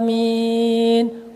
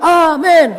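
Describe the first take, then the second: First: It is said slowly. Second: It is said quickly.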